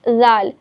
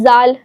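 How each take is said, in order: First: The letter is said gently and very softly. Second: The letter is said hard and very distinctly. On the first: The speaker calls it right. "बहुत softly pronounce नरमी से अदा करेंगे" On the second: The speaker calls it wrong. "बिल्कुल वाज़े करके पढ़ देते हैं ना ज़ाल, वो गलत है"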